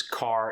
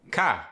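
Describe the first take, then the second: First: Said in the usual way. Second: South African "car", loud with no final R; South African accent. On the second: Shown as a demonstration. Teaching the dropped R, loud South African "car". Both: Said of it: "there's the dropped R".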